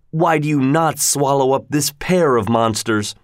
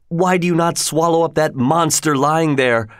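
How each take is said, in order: First: "pair" leaned on, "why" left light; weight moves onto "pair" of monsters; stress on pair. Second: A touch of anger with "why" leaned on; stress on why. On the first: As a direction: correct yourself by pressing "pair". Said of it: "Or rather". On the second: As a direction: hit "why" hard in mild anger. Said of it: "I was so angry". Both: A narrator's reading.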